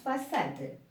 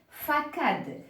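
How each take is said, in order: First: The c is pronounced as an s sound. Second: The c is pronounced as a k sound. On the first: "je dois lui ajouter la cédille et à ce moment-là, ça se prononce façade" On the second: "si j'écris de cette façon, et se prononce facade"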